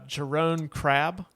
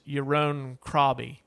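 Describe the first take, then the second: First: The name is read with English spelling sounds. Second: The name is said with Dutch-style sounds. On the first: "I'm just going to read it how it looks" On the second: "I looked up on Google how to pronounce his name"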